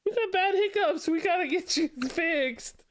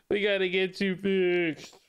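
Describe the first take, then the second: First: High cooing voice with a laugh. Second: Said in the usual way. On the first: Real, not acted. Talking to the baby.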